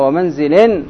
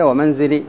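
First: The word ends in an -in nunation. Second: The word ends in a long i vowel. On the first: The rhyme is lost. The speaker calls it wrong. "ومنزل نونت أخرجت التقفية" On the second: The word rhymes with the line ending. The speaker calls it right. "تكون تقفية ومنزلي"

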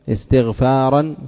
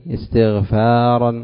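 No difference in how they are said.

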